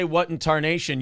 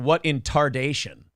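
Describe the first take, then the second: First: "tarnation" said normally, tar-NAY-shun; plain "tarnation" with a clear n. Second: "tardation" with d in place of n, slowly. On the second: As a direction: say "tardation", tar-DAY-shun, slow. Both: Shown as a demonstration. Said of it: "you should be saying".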